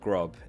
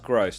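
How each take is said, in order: First: The name ends with a B sound. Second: The name ends with an S sound. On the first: The speaker calls it wrong. "not Grob" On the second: The speaker calls it right. "it's pronounced Gross"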